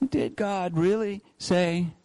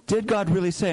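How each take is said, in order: First: Doubting tone. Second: DID raised and pushed, a sly seed of doubt; doubt-sowing question. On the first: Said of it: "What's the tone behind that question?". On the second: Preacher voicing the serpent to Eve, sly and doubting. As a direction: plant doubt with a rising DID. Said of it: "Planting seeds of doubt". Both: Shown as a demonstration.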